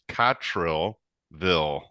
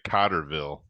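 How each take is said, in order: First: The middle syllable is 'trell' with an L. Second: The middle syllable is 'ter' with no L. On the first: The speaker calls it right. "It's Cottrillville" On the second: The speaker calls it wrong. "I hate when people say Cotterville"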